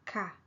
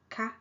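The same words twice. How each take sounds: First: KA gliding down in pitch; falling tone. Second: KA held high in pitch. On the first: Teacher comparing both particles side by side, falling tone. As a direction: drop the pitch through KA. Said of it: "okay, falling tone". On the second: Teacher comparing both particles side by side, high tone. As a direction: keep KA up, no fall. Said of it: "high tone". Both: Shown as a demonstration.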